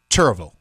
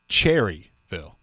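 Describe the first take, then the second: First: The name is said in a clipped, shortened form. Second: The name is said in its full spelled-out form. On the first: This is how locals say it. The speaker calls it right. "People down here in North Carolina, we pronounce it Churrville" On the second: This is how outsiders say it. The speaker calls it wrong. "So it's not Cherryville"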